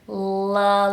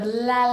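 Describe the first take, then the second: First: The L is made further back in the throat. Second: The L is made toward the front of the mouth. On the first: The speaker calls it right. "a little bit further back in the throat" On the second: The speaker calls it wrong. "instead of la, la, la, like we might see in Spanish"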